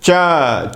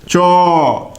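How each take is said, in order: First: The vowel after ch sounds like a. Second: The vowel after ch sounds like o. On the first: This is how it is said in Bihar. "Bihar वगैरह में जो अच्छे जानकार हैं वे बिल्कुल vertical pronunciation करते हैं" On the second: This is how it is said further east. "पूरब की ओर बढ़ते जाएंगे तो इसका उच्चारण जो है वर्तुलाकार होता चला जाता"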